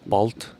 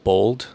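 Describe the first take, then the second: First: It is said the Mongolian way, as written. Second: It is read as the English word spelled.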